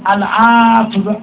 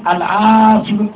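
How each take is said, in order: No difference in how they are said.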